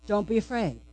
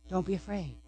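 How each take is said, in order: First: Quiet, gentle, reassuring; soft reassurance. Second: Much softer, hushed and tender; barely above a breath, soothing; near-whispered reassurance. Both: Acted. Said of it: "The words are this".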